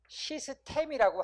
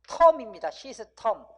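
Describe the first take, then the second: First: The last vowel is a clear 'e' sound. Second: The last vowel is a reduced 'eo' sound. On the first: This is the established local usage. "시스템이라고 하죠" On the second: This is the original foreign pronunciation. "실제 발음은 시스텀입니다"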